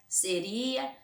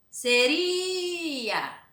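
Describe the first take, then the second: First: Said in the usual way. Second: Seria with RI held long and high; stress on RI. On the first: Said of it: "pra vocês pronunciar e marcar". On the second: Shown as a demonstration. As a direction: stretch out the RI of seria. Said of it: "vocês vão pronunciar".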